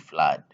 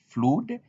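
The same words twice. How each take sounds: First: The vowel is said as an ah sound. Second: The vowel is said as a U sound. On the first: The speaker calls it right. "but you say you say flood" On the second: The speaker calls it wrong. "You cannot say flood"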